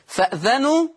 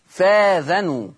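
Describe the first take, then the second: First: A glottal stop follows the f. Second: A long a follows the f.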